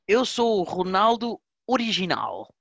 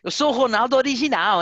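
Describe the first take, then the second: First: It is spoken in a European Portuguese accent. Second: It is spoken in a musical Brazilian accent.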